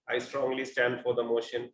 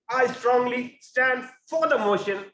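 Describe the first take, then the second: First: It is said plainly, with little energy. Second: It is said loudly, with power and enthusiasm. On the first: The speaker sounds detached from the position. The speaker calls it wrong. "instead of saying" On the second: The speaker sounds truly committed to the position. The speaker calls it right. "so you show your power, and then you show your enthusiasm"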